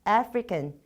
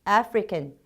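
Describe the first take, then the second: The two takes are said the same way.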